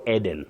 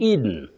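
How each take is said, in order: First: The first vowel is not a long E. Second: The first vowel is a long E. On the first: The speaker calls it wrong. "we should avoid Eden" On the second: The speaker calls it right. "You begin with E, the long sound E"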